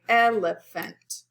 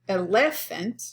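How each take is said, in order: First: The stress is on the first syllable. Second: The stress is on a later syllable. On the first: The speaker calls it right. "So we stress the first syllable naturally" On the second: The speaker calls it wrong. "We don't say elephant"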